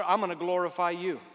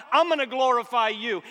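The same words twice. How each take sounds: First: "I'm" leaned on, firm but held back; firm declaration. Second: "I'm" hit high and loud, much higher; soaring declaration. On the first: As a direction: state it firmly, first time. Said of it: "quoted declaration of praise". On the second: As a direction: lift the repeat to a ringing cry. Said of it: "repeated louder declaration". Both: Acted.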